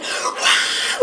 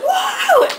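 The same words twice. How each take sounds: First: Unvoiced mock cheer; holding back the last scream as a whisper. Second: Very high, loud whoop; dad joining in with a real shout; full shout. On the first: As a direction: scream without voice. Quiet scream after being told stop. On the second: Retold or imitated. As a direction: let it rip.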